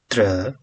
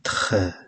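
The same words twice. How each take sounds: First: The R sounds like an English R. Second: The R sounds like a French throat R. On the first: The speaker calls it wrong. "T R is not tre" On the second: The speaker calls it right. "but tre"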